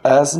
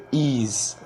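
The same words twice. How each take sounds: First: ایز said short and clipped, the wrong way; quick plain ایز. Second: ایز with the sound stretched, "ee" and "e" blended; drawn-out as. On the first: Teacher corrects students' reading of "as", wrong take short. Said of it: "ایز نہیں پڑھتے، ایز". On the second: Teacher corrects students' reading of "as", stretched right take. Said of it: "تھوڑا سا sound کھینچنا پڑتا ہے". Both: Shown as a demonstration.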